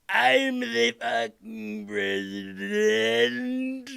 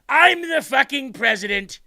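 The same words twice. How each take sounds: First: It is said slowly, like slow motion. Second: It is said at normal speed.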